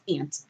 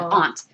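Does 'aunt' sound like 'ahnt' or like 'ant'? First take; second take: ant; ahnt. First: The vowel sounds like the insect word ant. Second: The vowel is broad, like ahnt. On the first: The speaker calls it wrong. "this new Nina doesn't. She says aunt" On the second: The speaker calls it right. "because it's A U N T, not uh, the little bug"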